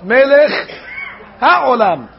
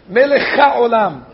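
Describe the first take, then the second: First: The h at the start of ha'olam is pronounced. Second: The h is swallowed, linking melech into olam. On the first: The speaker calls it right. "They have to pronounce the heh" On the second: The speaker calls it wrong. "the chaf of melech, and they just swallow it into the next word"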